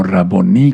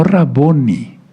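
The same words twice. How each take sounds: First: Raboní, aguda, con la fuerza en la í final; acento en la I. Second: Raboni, llana, con la fuerza en "bo"; acento mal puesto. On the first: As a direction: di "Raboní" cargando la última sílaba. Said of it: "con acento en la I". (acento al final, en la í de Raboní) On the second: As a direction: di "Raboni" cargando la penúltima sílaba. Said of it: "no Raboni, sino Raboní, con acento en la I". (acento en la "bo" de Raboni, no al final) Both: Shown as a demonstration.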